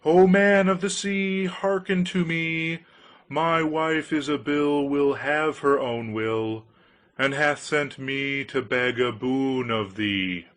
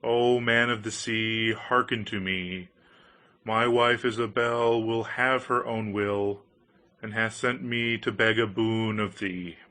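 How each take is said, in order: First: Cried out. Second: Solemn invocation. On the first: Fisherman cries out to the fish over a dark, rough sea, loud and slow. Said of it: "as he cried out". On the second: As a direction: call the fish with ritual solemnity. Went close to the edge of the waves and said. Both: A narrator's reading.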